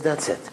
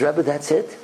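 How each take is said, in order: First: "that's it" as a short statement, no questioning rise; plain confirmation. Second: "that's it" with a rising questioning end; surprised question. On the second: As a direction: ask "that's it" in mild disbelief, lifting "it". She questions, he confirms. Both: Retold or imitated.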